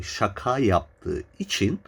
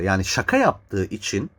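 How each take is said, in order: First: Şaka yaptığı için said slowly, each word weighed; slow, deliberate repeat. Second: Said in the usual way. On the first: Shown as a demonstration. Repeating for listeners, slow and emphatic. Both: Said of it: "net tekrar etmem lazım bu lafı".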